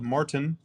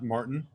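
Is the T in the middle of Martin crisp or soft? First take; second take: crisp; soft. First: The middle T is crisply pronounced. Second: The middle T is softened or dropped. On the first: "Tim always pronounces his T's" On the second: "not Martin"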